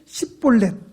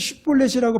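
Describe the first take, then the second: First: The word begins with a plain s sound. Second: The word begins with an sh sound. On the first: The speaker is an Ephraimite. The speaker calls it wrong. "십볼렛 이렇게 발음을 합니다" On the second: The speaker is not an Ephraimite. The speaker calls it right. "십볼렛을 십볼렛이라고 발음하지 못하고"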